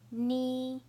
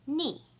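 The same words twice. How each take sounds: First: The pitch stays high and level. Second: The pitch falls sharply from high.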